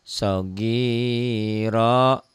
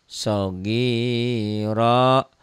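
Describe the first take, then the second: Both takes have the same delivery.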